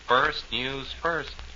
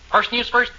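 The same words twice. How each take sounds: First: It is said plainly, without extra force. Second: It is said forcefully, with more punch.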